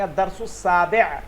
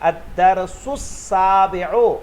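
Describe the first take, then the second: First: The phrase ends with a clipped ending. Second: The phrase ends with a full final vowel. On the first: The speaker calls it right. "अरबी ऐसे नहीं पढ़ी जाती, कहेंगे" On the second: The speaker calls it wrong. "देखिए मैं पढ़ रहा हूं"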